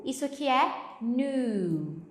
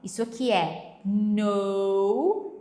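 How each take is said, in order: First: New said slowly with a long u, like nu; pronouncing new. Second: No said slowly with a round o; pronouncing no. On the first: Teacher contrasting new and no for students, slow and clear. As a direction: draw out new, clearly different from no. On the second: Teacher contrasting no and new for students, slow and clear. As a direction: draw out no, clearly different from new. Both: Shown as a demonstration. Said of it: "esse K aqui, não pronuncia".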